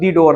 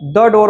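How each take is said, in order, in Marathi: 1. हा लेख 'thee' असा वाजतो. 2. हा लेख 'thuh' असा वाजतो. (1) "दी डोअर ने म्हटलं" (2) "इथं आपण द डोअर म्हटलं"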